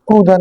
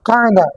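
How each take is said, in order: First: The first vowel is a rounded 'o' sound. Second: The first vowel is an open 'a' sound. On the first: The speaker calls it wrong. "কৌদা না" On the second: The speaker calls it right. "আসলে ডিকশনারির মধ্যে কৌদা না শব্দটা হচ্ছে কায়দা"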